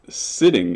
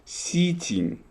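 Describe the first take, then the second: First: The middle T sound is short, as usual. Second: The middle T sound is held long.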